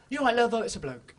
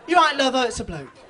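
First: One continual sentence. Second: Louder run-on line, no pauses; laughing, louder run-together quote; one continual sentence. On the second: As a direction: slur it all into one breath, louder. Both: Retold or imitated. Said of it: "In one continual sentence".

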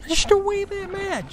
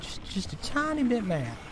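First: High squeaky voice, pretending to be barely bothered; cutesy high falsetto understatement; squeaky mock calm. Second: Said in the usual way. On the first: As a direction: play down the rage in a silly high voice. Frustrated gamer mocks own anger.

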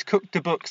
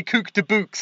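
First: "Cook de books" with a crisp southern English accent; posh southern accent. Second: "Cook de books" with a Scouse accent, "de" for "the"; Liverpool accent. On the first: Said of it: "saying it in my posh South voice". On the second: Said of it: "You gotta say". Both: Shown as a demonstration.

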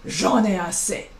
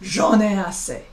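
First: "J'en ai assez." in French, lower and falling at the end; fed-up French "J'en ai assez."; French phrase. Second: "J'en ai assez." repeated in French, falling at the end; French "J'en ai assez." again, fed up; French phrase repeated. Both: Shown as a demonstration. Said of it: "we would say".

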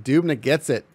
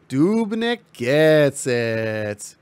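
First: Said in the usual way. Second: Very slow, stretched-out play call; drawn-out call. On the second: Acted. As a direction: stretch every word of the call.

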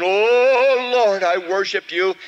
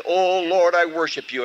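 First: Louder, higher cry of Oh Lord; fervent prayer. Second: Said in the usual way. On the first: Acted. The preacher tries again to worship, loud high praise.

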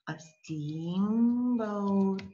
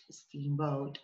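First: "steamboat" stretched very long; slow dictation. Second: Said in the usual way. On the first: Shown as a demonstration. Teacher writes English word down, slow drawn-out dictation. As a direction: hold each half of "steamboat" as if spelling it out. Slow writing, then usual repeat.

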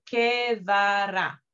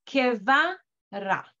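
First: "que va ra" read as the reading to avoid; the version not to use; wrong reading. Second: "Que va ra" slowly, "Que va" run together as one syllable. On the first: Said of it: "no voy a leer". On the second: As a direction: blend "Que va" into one beat. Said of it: "como que fuera una sola sílaba". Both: Shown as a demonstration.

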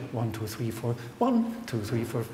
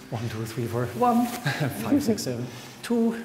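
First: Counting aloud. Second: Counting aloud through laughter; laughing while counting. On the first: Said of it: "did you actually go like". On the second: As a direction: count the beats, giggling between. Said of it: "one of those people who just goes". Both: Shown as a demonstration.

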